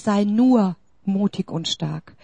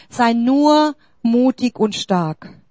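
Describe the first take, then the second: First: Said in the usual way. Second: „nur“ langsam und betont gedehnt; stress on nur. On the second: Shown as a demonstration. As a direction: das Wort „nur“ hervorheben, ruhig und langsam. (Betonung auf „nur“, langsam gesprochen) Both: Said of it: "Nur, ich betone".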